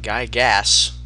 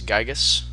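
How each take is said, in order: First: The first syllable sounds like the word guy. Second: The first syllable does not sound like guy. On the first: The speaker calls it wrong. "it's not Guy Gas" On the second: The speaker calls it right. "It's Gygas"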